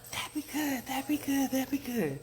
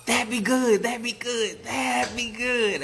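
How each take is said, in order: First: Tiny, very high squeak; small squeaky frog echo; little frog peep. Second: Loud, high hollered frog chant; big-voiced frog chorus; bullfrog call. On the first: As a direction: peep it back in a wee voice. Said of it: "the little frogs peeped back". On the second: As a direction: belt it out like big frogs calling. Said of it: "The bullfrogs called". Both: A narrator's reading.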